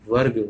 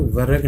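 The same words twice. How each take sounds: First: वर्ग with र and ग joined; वर्ग shown the right way; right take. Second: वर्ग with a vowel between र and ग; वर्ग shown the wrong way; wrong take. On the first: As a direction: say वर्ग tight, no extra vowel. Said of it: "वर्ग होता है". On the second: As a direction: say वर्ग as व-रग, the error. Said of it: "वर्ग नहीं होता". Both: Shown as a demonstration.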